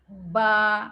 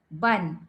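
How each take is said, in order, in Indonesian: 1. Suku katanya berakhir dengan vokal biasa. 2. Suku katanya berakhir dengan bunyi n. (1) "Kalau kita berhenti ba" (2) "nak sambung ban"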